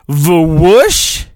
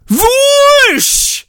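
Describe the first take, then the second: First: "Vwoosh" sounded out flat, rising as a question; unsure reading of "Vwoosh"; puzzled try. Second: High whooshing "Vwoosh" swept down; mock sound effect, high and falling. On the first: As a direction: test the word doubtfully. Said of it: "Is that how you say anything?". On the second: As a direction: swoosh it high like a lightsaber. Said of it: "that's what it says". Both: Shown as a demonstration.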